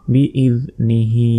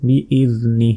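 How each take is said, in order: First: Full ending হি sounded in বি ইজ নি হি; continuing form. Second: বি ইজ নি ending on নি, no হি; stopping form. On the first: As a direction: sound every syllable through the last হি. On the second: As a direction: drop the final হি and stop on বি ইজ নি. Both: Shown as a demonstration. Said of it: "থামলে".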